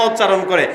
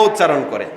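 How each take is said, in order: The two takes are said the same way.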